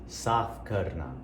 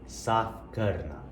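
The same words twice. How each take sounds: The two takes are said the same way.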